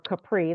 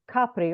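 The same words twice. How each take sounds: First: It is said with an American pronunciation. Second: It is said with an Italian pronunciation.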